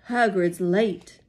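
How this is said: It is said in a put-on Dumbledore voice.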